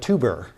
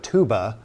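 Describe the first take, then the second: First: The word ends with an added R sound. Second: The word ends in a plain vowel. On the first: "they would call it a tuber" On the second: "which I would refer to as a tuba"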